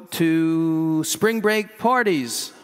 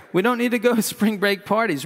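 First: Slow, deliberate, every word weighed. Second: Fast, a bit higher, laughing at own line; laughing through it. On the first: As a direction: lay it out slowly as a sermon point. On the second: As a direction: redo the line, breaking into a laugh. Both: Real, not acted. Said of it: "Why do I have that in here?".

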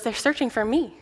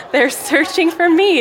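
First: Put-on soft, giggling child's answer; little giggle. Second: Punchline repeat. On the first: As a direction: giggle the words quietly like a mischievous kid. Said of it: "he hears this little giggle". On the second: Retold or imitated. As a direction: land the punchline high and drawn out. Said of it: "he says".

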